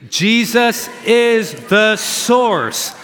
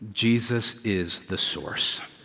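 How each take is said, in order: First: It is said loudly, with conviction. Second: It is said at normal volume.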